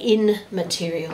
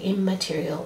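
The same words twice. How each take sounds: First: It begins with an 'in' sound before m. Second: It begins with an 'im' sound before m. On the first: The speaker calls it wrong. "it's hard to say immaterial" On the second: The speaker calls it right. "so we say immaterial"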